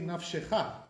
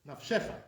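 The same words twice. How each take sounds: First: The stress falls where Sephardi readers put it. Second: The stress falls where Ashkenazi readers put it. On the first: The speaker calls it right. "That's the proper stress on that word" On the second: The speaker calls it wrong.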